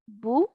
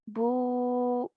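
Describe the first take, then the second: First: The vowel is held for one short beat. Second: The vowel is held for two beats. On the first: "The timing is one count for dhamma" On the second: "I'm just doubling the time"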